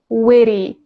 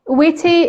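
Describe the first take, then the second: First: The middle T is a soft flapped d-like sound. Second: The middle T is a crisp t sound. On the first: "American speakers pronounce it with a flat T" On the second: "standard pronunciation"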